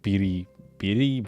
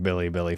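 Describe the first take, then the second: First: The name is said with R sounds. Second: The name is said with L sounds. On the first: "the fucking alphabet for it is like Biri Biri, but that sounds weird" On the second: "I'm just gonna keep saying Billy Billy"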